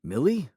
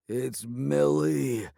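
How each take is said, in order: First: A higher questioning Millie, slight disbelief; surprised repeat. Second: Slow, stuffed-nose voice after the fall; clogged voice. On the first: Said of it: "I repeated". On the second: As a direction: drag out Millie through a swollen nose. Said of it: "he said in a clogged voice". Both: A narrator's reading.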